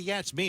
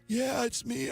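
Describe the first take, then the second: First: The voice sounds normal and healthy. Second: The voice sounds raspy and weak. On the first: The caller does not sound ill. The speaker calls it wrong. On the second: The caller sounds ill enough to stay home. The speaker calls it right.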